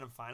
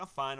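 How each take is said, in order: First: Softer, trailing self-reassurance; quiet muttered reassurance; softer repeat. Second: Said in the usual way. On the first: Retold or imitated. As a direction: drop the voice, say it again to yourself. Brushing off a worried stranger.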